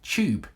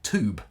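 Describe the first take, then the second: First: It is said in a British accent. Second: It is said in an American accent. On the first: "here in England, I say tube" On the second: "In America, you say tube"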